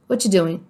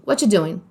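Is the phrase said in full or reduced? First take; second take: reduced; reduced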